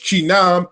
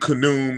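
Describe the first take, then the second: First: The name begins with a ch sound. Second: The name begins with a hard k sound. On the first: The speaker calls it right. "they give us the correct pronunciation" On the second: The speaker calls it wrong. "probably not the right pronunciation"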